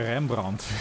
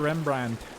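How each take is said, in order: First: The name is said with a Dutch pronunciation. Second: The name is said with an English pronunciation. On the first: "How many people say Rembrandt? Probably few" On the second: "because it does sound more usual"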